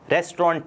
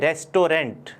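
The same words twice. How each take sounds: First: The final t sound is left silent. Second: The final t sound is pronounced. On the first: This is how it is said in English. The speaker calls it right. "टी last में silent है।" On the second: This is how it is said in Hindi. The speaker calls it wrong. "Hindi में हम इसको बोलते हैं रेस्टोरेंट"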